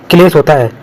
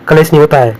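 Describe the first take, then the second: First: क्लेश said as one syllable, "klesh"; correct cluster. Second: कलेश said "ka-lesh" with an extra vowel; wrong form. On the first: Teacher to students, correct क्लेश. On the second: Teacher showing the wrong कलेश. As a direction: split the kl in कलेश into two syllables. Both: Shown as a demonstration.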